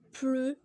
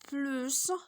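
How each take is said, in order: First: The word ends on its vowel, no final consonant. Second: The word ends with a clear s sound. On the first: "on dit plus sans prononcer le S" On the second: "on va dire plus et on va prononcer le S"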